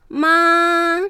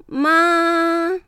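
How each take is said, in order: First: The pitch stays high and level throughout. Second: The pitch stays high and level throughout.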